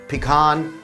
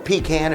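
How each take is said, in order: First: It is said in a general, non-Southern way. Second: It is said in a Southern American way.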